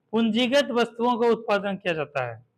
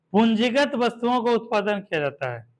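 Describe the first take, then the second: No difference in how they are said.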